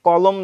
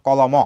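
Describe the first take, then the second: First: Said in the usual way. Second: কলম run together as "ko-lo-mo"; wrong reading of কলম with its last vowel voiced; final vowel sounded. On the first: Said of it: "মটাকে তুমি লয়ের সাথে উচ্চারণ করো". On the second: Shown as a demonstration. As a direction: sound an open o after the ম in কলম. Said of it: "এইভাবে উচ্চারণ করো না".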